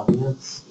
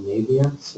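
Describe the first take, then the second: First: Naviance in the speaker's own alternative pronunciation. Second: Said in the usual way. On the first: Shown as a demonstration. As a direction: offer a second way of saying Naviance. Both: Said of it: "as I pronounce it".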